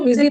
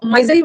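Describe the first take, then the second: First: मिजरी with a short "mi" first syllable; short i opening मिजरी, as in "miss"; correct pronunciation. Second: माइजरी with a long "my" first syllable; first syllable of माइजरी rhymes with "eye"; wrong pronunciation. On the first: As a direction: say मिजरी as "MIZ-uh-ree". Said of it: "इसको मिजरी पढ़ना". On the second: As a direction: misread it as "MY-zuh-ree". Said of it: "इसको माइजरी मत पढ़ना". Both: Shown as a demonstration.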